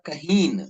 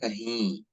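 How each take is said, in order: First: The word ends with a full n sound. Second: The final vowel is nasalized without an n. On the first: "अगर इसे नुक्ता डाल डाले तो होता कहीन" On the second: "नुक्ता निकाले तो हो जाता है"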